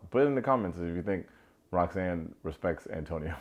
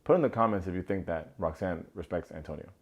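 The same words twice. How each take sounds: First: Rushed, tongue-in-cheek ask; quick sarcastic call to comment; joking. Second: Straight-faced, steady request; sincere call to comment; serious. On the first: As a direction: toss it off fast, half laughing. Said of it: "No, no, I'm gonna say it seriously". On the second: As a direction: say it plainly, no joke. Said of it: "I'm gonna say it seriously". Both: Shown as a demonstration.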